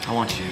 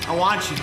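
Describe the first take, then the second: First: It is said quietly. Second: It is said loudly.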